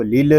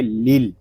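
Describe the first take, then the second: First: "लिल" with a small extra vowel after the last ल; wrong bounced ending. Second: "लिल" closed on a still ल, no vowel after; still final consonant. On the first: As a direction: bounce the final ल of "लिल" into a short uh. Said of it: "इस तरह नहीं पढ़ेंगे". ("लिल" के आख़िरी ल को झटका देकर) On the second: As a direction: end "लिल" cleanly on the l sound. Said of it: "सुकून के साथ अदा करेंगे". ("लिल" का आख़िरी ल सुकून के साथ) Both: Shown as a demonstration.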